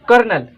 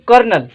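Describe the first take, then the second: The two takes are said the same way.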